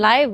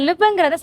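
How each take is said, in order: First: The vowel is long, like 'eye'. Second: The vowel is short, like 'ih'. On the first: Happening in real time. "உடனடியாக நடந்துட்டு இருக்க விஷயத்த capture பண்ணி காட்டுறது தான் லைவ்" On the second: To reside somewhere. "லிவ்னு சொல்லுவோம்"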